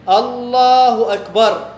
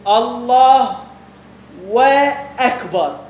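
First: Said in the usual way. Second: "الله" then a pause, then a very slow "وأكبر" with an extra "و"; wrong added wa. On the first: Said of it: "مثال". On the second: Shown as a demonstration. Teacher showing the wrong takbir with a wrongly added wa: stretched "وأكبر". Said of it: "شوف".

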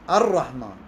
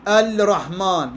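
First: "الرحمن" as ar-rahman; no l, doubled r in "الرحمن"; lam merged into ra. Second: "الرحمن" as al-rahman with a clear l; slow, keep the l before r in "الرحمن"; drawn-out unmerged l in "الرحمن"; lam sounded, wrong. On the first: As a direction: roll "الرحمن" straight into the r. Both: Shown as a demonstration. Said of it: "لا،".

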